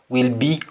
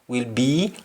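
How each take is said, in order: No difference in how they are said.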